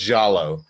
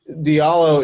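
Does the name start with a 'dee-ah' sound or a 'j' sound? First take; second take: j; dee-ah. First: The name starts with a single 'j' sound. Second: The name starts with a separate 'dee-ah' sound. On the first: This is the West African form of the name. "It could be pronounced Jallo" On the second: This is the anglicized form the family uses. "Diallo is how I pronounce it, and it's sort of the anglicized version of the name"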